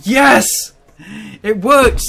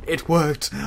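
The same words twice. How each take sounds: First: High, loud triumphant cry; excited shout. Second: Said in the usual way. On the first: Real, not acted. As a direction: yell out the sudden win. Surprise win in a game.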